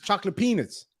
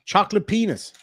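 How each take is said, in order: First: "peanuts" said clearly as pea-nuts; "chocolate peanuts" spelled out carefully, mouth clear; clear correction. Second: Garbled through a mouthful of peanuts; "Chocolate penis" mumbled around food, peanuts slurred; mouth full. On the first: Shown as a demonstration. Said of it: "Not chocolate wieners". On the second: Real, not acted. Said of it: "My mouth was full of chocolate peanuts".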